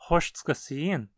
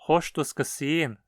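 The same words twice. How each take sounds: First: The pronouns are heavily reduced or dropped. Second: The pronouns are said in their full forms. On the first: "sendo pronunciado como" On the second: "podemos ouvir"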